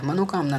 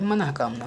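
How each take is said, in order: First: मनोकामना as mano-kamna; wrong form. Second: मनःकामना as manah-kamna; corrected form. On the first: Teacher shows the error, मनोकामना with o. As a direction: put an o before kamna in मनोकामना. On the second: Teacher corrects students, मनःकामना with h sound. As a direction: breathe an h before kamna in मनःकामना. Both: Shown as a demonstration. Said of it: "नहीं होता है".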